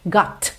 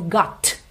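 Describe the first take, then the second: First: The final t is barely heard. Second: The final t is clearly released. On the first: The speaker calls it right. "Got, ok?" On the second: The speaker calls it wrong. "você não ouve got"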